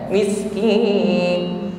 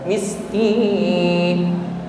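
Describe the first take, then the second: First: The final n sound stops abruptly. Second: The final n sound lingers and flows on. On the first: The speaker calls it wrong. "langsung hilang suaranya" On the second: The speaker calls it right. "ada suara yang masih mengalir, tidak langsung habis"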